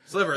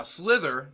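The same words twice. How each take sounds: First: Sliver said with a V, not a TH; mistaken Sliver. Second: Slither said with a clear TH sound; corrected Slither. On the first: He names the wrong film, a louder Sliver. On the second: Correcting himself after his cohost, Slither with TH. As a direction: fix it to Slither with TH. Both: Real, not acted.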